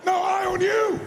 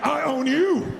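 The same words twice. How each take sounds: First: High, loud playful shout; booming playful I own you; shouted challenge. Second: Louder, firm challenge; mean every word of it; forceful playful challenge; said like you mean it. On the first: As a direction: throw the challenge back, full force. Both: Shown as a demonstration. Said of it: "say it like you mean it".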